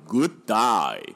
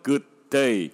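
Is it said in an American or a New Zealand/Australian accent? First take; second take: New Zealand/Australian; American. First: It is said in a New Zealand/Australian accent. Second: It is said in an American accent.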